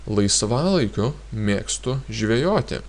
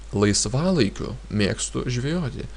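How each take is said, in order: Both takes have the same delivery.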